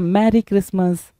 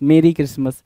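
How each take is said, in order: First: The first word sounds like 'marry'. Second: The first word sounds like 'merry'. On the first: The speaker calls it wrong. "मैरी नहीं होता लल्ला" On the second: The speaker calls it right. "मेरी Christmas बोलते हैं"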